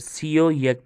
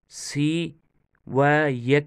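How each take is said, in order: First: The word 'and' is joined as 'o'. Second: The word 'and' is a separate 'va'. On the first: The speaker calls it right. "सीओ यक पढ़ेंगे" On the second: The speaker calls it wrong. "सी व यक नहीं पढ़ेंगे"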